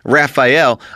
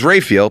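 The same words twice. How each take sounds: First: The name is said like the Ninja Turtle's. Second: The name is not said like the Ninja Turtle's. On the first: This is how other people say the name. The speaker calls it wrong. "People pronounce it Raphael" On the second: This is how the family says the name. The speaker calls it right. "Her name is Raphael"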